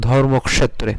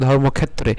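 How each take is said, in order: First: ধর্মক্ষেত্রে with ক্ষ sounded as k plus sh; Sanskrit pronunciation. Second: ধর্মক্ষেত্রে with ক্ষ said as a plain kh, "khettre"; Bengali pronunciation. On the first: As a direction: say ধর্মক্ষেত্রে as dhormok-shetre. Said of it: "সংস্কৃতে উচ্চারণ করব". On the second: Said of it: "আমরা বাংলায় উচ্চারণ করি". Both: Shown as a demonstration.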